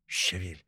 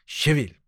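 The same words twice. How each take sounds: First: Soft hushed gosling; hushed little gosling voice; gosling whisper. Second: Higher little gosling call; higher chirpy gosling voice; gosling squeak. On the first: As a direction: breathe it very quietly. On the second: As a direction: pipe it up high. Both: A narrator's reading. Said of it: "шепчут гусенята".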